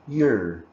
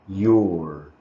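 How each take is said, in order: First: The word is said with a reduced vowel. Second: The word is said with a full vowel. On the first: "It becomes your" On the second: "Number three, your"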